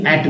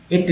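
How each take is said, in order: First: "एट" with the open "a" of "cat"; "एट" rhyming with "mat"; corrected vowel. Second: "एट" with a long "ay" vowel, like "eight"; "एट" rhyming with "mate"; rejected vowel. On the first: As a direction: say "एट" as English "at". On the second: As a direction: say "एट" as English "ate". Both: Shown as a demonstration. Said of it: "एट नहीं, एट बोलेंगे".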